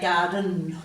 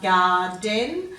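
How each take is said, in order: First: The last syllable has a reduced schwa vowel. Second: The last syllable has a full, clear vowel. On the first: "we would say garden" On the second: "rather than saying"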